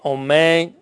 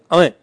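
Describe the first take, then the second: First: The first vowel sounds like o. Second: The first vowel sounds like a. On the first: The speaker calls it right. "а не омейн" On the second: The speaker calls it wrong. "это что не слышно каматься"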